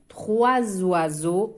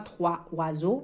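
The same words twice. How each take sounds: First: A z sound links the two words. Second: There is no z sound between the words. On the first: The speaker calls it right. "on fait la liaison ici, le S avec le O, on dit zoa" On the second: The speaker calls it wrong. "On ne dit pas"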